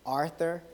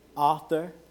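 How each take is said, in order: First: It is pronounced like the name Arthur. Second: It is pronounced as the word author. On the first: The speaker calls it wrong. "I mispronounce the word author, and I call it Arthur" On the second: The speaker calls it right. "rather than author"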